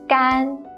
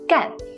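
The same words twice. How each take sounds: First: The syllable is said with the first tone. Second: The syllable is said with the fourth tone. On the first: It means dry. "it's the first tone" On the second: It means to do. "it's the fourth tone"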